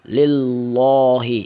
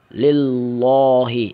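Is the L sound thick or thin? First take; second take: thick; thick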